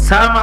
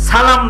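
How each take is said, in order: The two takes are said the same way.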